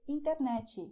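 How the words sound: It is said with a Brazilian Portuguese pronunciation. "He will say internet instead"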